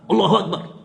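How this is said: It is barked like a soldier's command.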